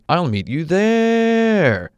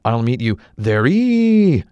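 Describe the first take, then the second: First: The word 'there' is held long and stretched out. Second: The word 'there' ends with an added 'ee' syllable. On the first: The speaker calls it right. "Say you wanted to stretch out the word there" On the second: The speaker calls it wrong. "So is there anything that can make that final E not silent?"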